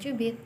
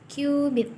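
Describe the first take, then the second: First: The word begins with a ch sound. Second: The word begins with a k sound. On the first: The speaker calls it wrong. "dibacanya bukan cubit" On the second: The speaker calls it right. "tapi qubit"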